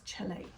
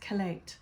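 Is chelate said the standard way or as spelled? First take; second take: as spelled; standard. First: The word is pronounced the way it is spelled. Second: The word gets its standard pronunciation. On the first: The speaker calls it wrong. "it looks like it's chelate" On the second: The speaker calls it right. "the proper way to pronounce it is chelate"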